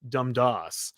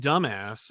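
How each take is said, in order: First: The middle consonant is a d sound. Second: The middle consonant is a b sound. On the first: The speaker calls it right. "It's pronounced Dumdas" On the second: The speaker calls it wrong.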